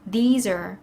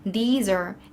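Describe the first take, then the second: Both takes have the same delivery.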